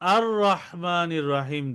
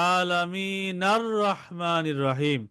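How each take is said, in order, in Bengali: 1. এটা নতুন করে শুরু হয়, একটি উচ্চারিত শুরুর 'a' ধ্বনি সহ। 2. এটা আগের শব্দের সাথে যুক্ত হয়, শুরুর 'a' বাদ যায়। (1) "যদি প্রথম আয়াতে ওয়াকফ করা হয়, তাহলে দ্বিতীয় আয়াতটি শুরু হবে আর রহমানির রহিম দিয়ে" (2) "যদি ওয়াকফ করা না হয়, তাহলে হবে আলামিনার রহমানির রহিম"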